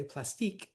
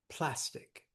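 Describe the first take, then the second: First: Plas-TEEK, weight on the last syllable; wrong-syllable stress. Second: Said in the usual way. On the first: Shown as a demonstration. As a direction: hit the end of plastique hard. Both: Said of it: "We don't say plastique".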